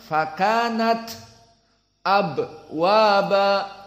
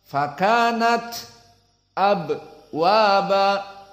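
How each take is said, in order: No difference in how they are said.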